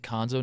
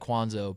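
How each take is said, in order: First: The name starts with a plain 'k' sound. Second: The name starts with a 'kw' sound. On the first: This is how the name's owner says it now. "he actually pronounces it Konzo now" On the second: This is how the spelling suggests the name is said. "so it looks like Kwanzo"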